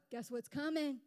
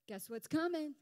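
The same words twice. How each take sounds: The two takes are said the same way.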